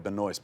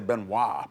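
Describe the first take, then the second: First: The name ends with an audible s sound. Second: The name ends without an s sound. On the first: The speaker calls it right. "It's probably Benoist" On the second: The speaker calls it wrong. "I want to say Benoit, but you probably don't say that"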